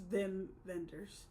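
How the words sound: The name is said the German way.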